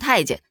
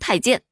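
First: The last syllable is in a light neutral tone. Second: The last syllable keeps its full tone. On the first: The speaker calls it wrong. "它就不能读成轻声，太监太监就不对" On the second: The speaker calls it right. "就得太监太监"

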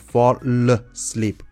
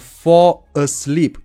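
First: The two words are linked together. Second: The two words are said separately.

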